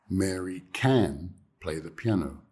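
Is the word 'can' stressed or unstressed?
stressed. The word can is stressed. "Now I'm isolating the can. I'm stressing it"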